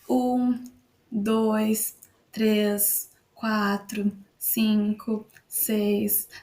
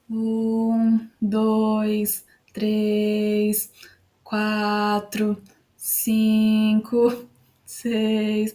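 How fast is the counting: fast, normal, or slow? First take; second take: normal; slow. First: The numbers are counted at a normal speed. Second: The numbers are counted slowly. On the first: "isso foi na minha velocidade normal" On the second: "Se eu contar mais devagarinho do que minha velocidade normal"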